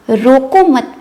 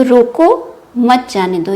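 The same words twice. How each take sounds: First: रोको मत said as one unit, then a break; pause after मत. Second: रोको set apart by a pause, then मत जाने दो run together; pause after रोको. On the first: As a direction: run रोको into मत and stop there. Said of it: "पे coma लगाकर कहते हैं". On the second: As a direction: break right after रोको, let मत जाने दो fall away. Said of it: "विराम चिन्ह का प्रयोग करते हैं". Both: Shown as a demonstration.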